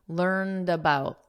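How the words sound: The word ends with a soft D sound. "In American English, the ending has a very soft D sound"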